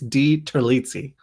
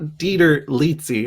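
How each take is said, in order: First: The name splits as Di plus Terlizzi. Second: The name splits as Dieter plus Lizzi. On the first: The speaker calls it right. "it's D Terlizzi" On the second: The speaker calls it wrong. "It's not Dieter Lizzi"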